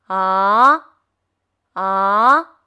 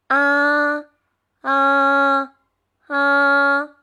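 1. 音调从中到高上升。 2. 音调保持高而平。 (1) "汽车上坡" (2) "汽车平走"

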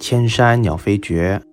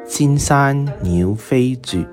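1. 用普通话读。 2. 用粤语读。

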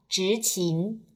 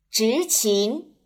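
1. 两个音节的音高都保持平调。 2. 两个音节的音高都明显上升。

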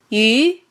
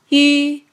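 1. 音高从中到高上升。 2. 音高保持在高处，基本不变。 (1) "二声扬" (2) "一声平"

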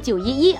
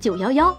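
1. 数字一读作yi。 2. 数字一读作yao。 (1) "也不读911" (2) "而读成911"

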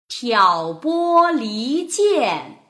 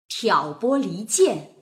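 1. 读得慢，吐字非常清楚。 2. 读得快一些，语气很有感情。

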